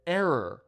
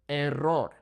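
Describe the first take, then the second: First: Error as AIR-er with English r; unrolled English "Error"; English pronunciation. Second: Error as eh-RROR with trilled r; Spanish "Error", rolled r and pure o; Spanish pronunciation. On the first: Teacher shows the English word, Error as AIR-er. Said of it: "If you can't roll your R's". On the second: Teacher models rolled R's, Spanish Error. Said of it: "roll your R's". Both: Shown as a demonstration.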